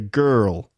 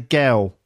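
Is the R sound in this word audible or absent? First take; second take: audible; absent. First: It is said in an American accent with R. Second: It is said in a Cockney accent without R. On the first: "an American would say girl" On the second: "she'd probably say girl like that in a Cockney accent"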